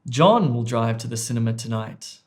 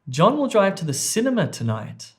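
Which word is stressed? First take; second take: John; cinema. First: The stress falls on the word 'John'. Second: The stress falls on the word 'cinema'. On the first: "It was actually on A" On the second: "I've placed emphasis or word stress on D, cinema"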